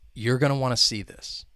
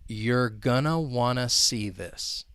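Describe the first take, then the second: First: The sentence is spoken at a faster pace. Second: The sentence is spoken at a slow pace. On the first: "Now let's speed it up a little bit" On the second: "I'll say it slowly"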